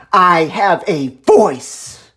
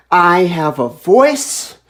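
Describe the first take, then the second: First: "I have a voice" word by word, falling at the end; slow, separated words, punching "voice" with finality; emphatic declaration. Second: "I have a voice" drawn out, rising at the end; slow declaration. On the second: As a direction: stretch each word of "I have a voice", lifting on "voice". Declares it, then repeats harder. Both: Real, not acted.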